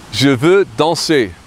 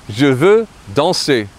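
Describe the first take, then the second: First: Je veux danser slowed down, each syllable clear; slow repeat for learners; slow French pronunciation. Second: Je veux danser at normal pace, stress on veux; first model of the sentence; French pronunciation. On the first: Teacher repeats je veux danser slowly for learners. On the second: Teacher gives je veux danser at natural speed. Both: Shown as a demonstration. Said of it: "I want to dance".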